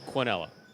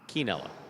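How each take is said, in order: First: It is said with an American-style pronunciation. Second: It is said with a Spanish-style pronunciation.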